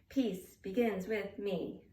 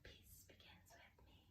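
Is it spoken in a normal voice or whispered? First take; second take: normal voice; whispered. First: It is spoken in a normal voice. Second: It is spoken in a whisper.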